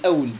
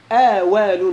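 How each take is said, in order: First: أول said with a sukun on the waw, awl, no vowel after it; wrong reading, silent waw. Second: آوال said with an open fatha on the waw, awal. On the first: Teacher warns students off the wrong reading, silent waw. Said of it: "يخطئ من يقرأها أول". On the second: Teacher shows students the correct reading, waw with fatha. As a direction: stretch the open vowel after the waw in آوال. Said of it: "بفتح الواو". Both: Shown as a demonstration.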